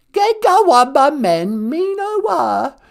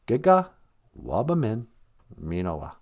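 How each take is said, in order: First: High, drawn-out comic British granny; high, slow royal attempt at Ojibwe; Queen. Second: Said in the usual way. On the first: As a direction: repeat it slowly as a put-on old monarch. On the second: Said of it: "We say".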